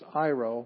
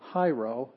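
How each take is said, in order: First: The word begins directly with a vowel. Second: The word begins with an h sound. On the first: The speaker calls it right. "it's iro, because that's a smooth breathing mark" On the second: The speaker calls it wrong. "So this is not hyro"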